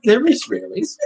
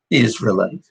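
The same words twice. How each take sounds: First: "Israelis" said as the wrong name, rising; quoting the wrong word "Israelis" back with a rise; saying it wrong. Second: "Israelites" said as the right name, settled; corrected word. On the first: Man repeating his misread word after a correction. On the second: Man fixing a word his host corrected. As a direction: give the correct "Israelites" plainly. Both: Shown as a demonstration. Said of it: "I stand corrected".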